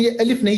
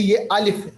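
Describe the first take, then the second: First: अलिफ with the short Urdu a and a clipped f; Urdu-style alif. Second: अलिफ with a long open Arabic a from the mouth cavity; Arabic tajweed alif. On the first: Teacher contrasts Urdu reading with tajweed, Urdu-style alif. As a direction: say अलिफ the everyday Urdu way, as the wrong example. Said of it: "हम जैसे उर्दू में अलिफ पढ़ते हैं". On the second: Teacher gives the right tajweed alif after the wrong one. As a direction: say अलिफ the correct Quranic way, opened up. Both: Shown as a demonstration.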